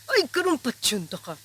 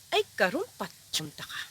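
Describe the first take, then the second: First: It is said with intense, furious anger. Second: It is said with only mild anger.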